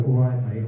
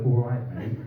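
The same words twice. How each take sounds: First: Cheery barman greeting. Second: Half-laughing reluctant greeting; reluctant reply. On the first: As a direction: greet him like an eager regular. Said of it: "you're gonna go". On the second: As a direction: mumble it back out of obligation. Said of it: "I'm gonna have to go". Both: Retold or imitated.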